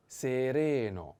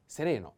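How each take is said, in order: First: Sereno drawn out syllable by syllable; slow model. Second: Said in the usual way. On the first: Shown as a demonstration. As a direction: stretch "sereno" slowly for learners. Teacher models word slowly.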